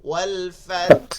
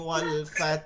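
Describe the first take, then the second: First: The final h is pronounced as a breathy sound. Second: The final h sound is dropped entirely. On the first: Every letter of the word is kept. The speaker calls it right. "হামসও করলাম, হা উচ্চারণ করলাম" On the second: A letter of the word is lost. The speaker calls it wrong. "এখানে হামস করতে গিয়ে সে হা ফালাই দিছে"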